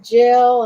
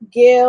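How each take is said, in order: First: The name begins with a j sound. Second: The name begins with a hard g sound.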